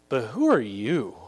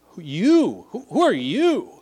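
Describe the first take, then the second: First: Measured, lightly voiced challenge from a spirit; evil spirit's reply. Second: "you" flung out high and loud; stress on YOU. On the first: Evil spirit answers the would-be exorcists, measured challenge. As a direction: answer as the spirit, deliberately paced. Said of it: "the evil spirit answered them". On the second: Acted. Demon-possessed man challenges the exorcists, loud stress on YOU. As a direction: challenge them, punching "you" hard both times. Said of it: "That's the emphasis".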